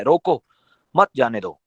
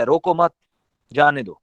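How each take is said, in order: First: "روکو" rising, pause, then "مت جانے دو"; pause after روکو. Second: "روکو مت" together, pause, then "جانے دو"; "روکو مت" joined, pause, falling "جانے دو"; pause after مت. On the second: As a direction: break after "مت" so it means let him go. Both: Shown as a demonstration. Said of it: "لہجہ کہانی بدل دیتا ہے".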